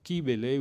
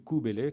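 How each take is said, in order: First: The first vowel sounds like 'ee'. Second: The first vowel sounds like 'oo'. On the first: The speaker calls it wrong. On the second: The speaker calls it right.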